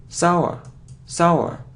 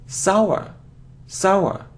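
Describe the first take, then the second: Both takes have the same delivery.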